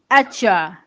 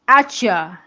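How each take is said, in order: Both takes have the same delivery.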